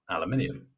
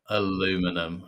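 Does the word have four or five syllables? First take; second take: five; four. First: The word is said with five syllables. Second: The word is said with four syllables. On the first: The speaker calls it right. "How am I supposed to pronounce aluminium?" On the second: The speaker calls it wrong. "It makes me feel physically sick when I hear Americans say things like that"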